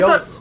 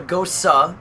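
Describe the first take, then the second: First: It sounds like the English word goes. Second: It ends with an extra final vowel. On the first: This is how an American would read the spelling. The speaker calls it wrong. "if it were American, it would be goes" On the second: This is the German pronunciation. The speaker calls it right. "it's called a Gosa because it is German"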